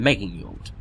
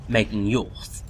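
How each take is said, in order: First: The name ends with a hard 'd' sound. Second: The name ends with a soft 'th' sound. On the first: "rather than" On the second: "it's mostly T H. So technically it should probably be"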